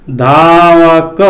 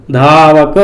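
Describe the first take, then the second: First: धावक drawn out slowly, syllable by syllable; slow sounding out. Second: Said in the usual way. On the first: Shown as a demonstration. Teacher sounding out धावक slowly for students. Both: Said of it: "किसकी ध्वनि आ रही है?".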